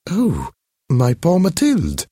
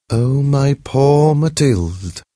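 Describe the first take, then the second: First: High society lady, startled pity; a lady catching her breath at the sight of her friend; lightly voiced high lady. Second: Slow, louder mournful pity; aching for her friend, drawn out; sad voice. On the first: Recognizing her changed friend, high startled pity. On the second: Acted. Holding her friend's hands, slow sad pity. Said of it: "she said in a sad voice".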